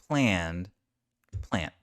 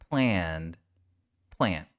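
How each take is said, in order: The two takes are said the same way.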